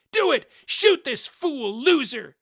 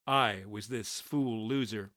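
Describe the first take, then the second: First: High, loud frantic yell; shouted order. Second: Said in the usual way. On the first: A narrator's reading. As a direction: yell to an accomplice to fire. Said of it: "Shotgun shouted".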